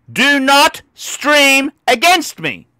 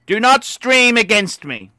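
First: Slow, word-by-word warning; stern warning. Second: Said in the usual way. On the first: Retold or imitated. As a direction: DO NOT STREAM each stressed separately. Repeats his warning to rivals.

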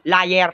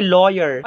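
First: "Liar" with an eye sound, not oy; corrected liar. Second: "lawyer" said in place of liar; mispronounced liar. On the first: Friend corrects Turjang's English, "Liar" said as lie-er. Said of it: "Anong lawyer, Turjang?". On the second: Pupil accusing classmate to teacher, "lawyer" mispronounced for liar. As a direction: say "lawyer" with an oy sound, meaning liar. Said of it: "Liar, tanga". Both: Acted.

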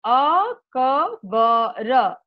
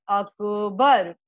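First: Slow, every letter voiced apart as अ-क-ब-र; syllable by syllable. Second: अकबर said quickly as one joined word, अक-बर, falling. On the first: Teacher drilling the class, spelling the word out slowly. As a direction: spell out अकबर slowly, one letter at a time. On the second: Teacher drilling the class, saying the whole word joined. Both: Shown as a demonstration. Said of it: "एक साथ जोड़ करके".

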